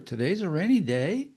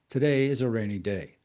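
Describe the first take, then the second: First: The pitch rises at the end. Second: The pitch falls at the end. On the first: The speaker is uncertain and insecure. "Up inflection means you're uncertain, you're insecure" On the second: The speaker does not want to talk about it anymore. "Down inflection means you don't want to talk about it anymore"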